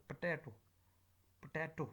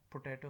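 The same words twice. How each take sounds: First: "potato" with "po" squeezed to a brief "p'"; reduced first vowel. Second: "potato" with a full vowel in "po"; full first vowel. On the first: Teacher correcting the word, reduced "po" in "potato". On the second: Teacher showing what it is not, full "po" in "potato". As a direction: say "potato" with its first syllable fully voiced. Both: Shown as a demonstration. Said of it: "This is not potato".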